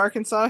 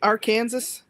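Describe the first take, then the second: First: The ending is pronounced like the word saw. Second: The ending is pronounced like the word Kansas. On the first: This is the usual way to say it. The speaker calls it right. "Instead of" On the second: Someone else said it this way. The speaker calls it wrong. "what does he say?"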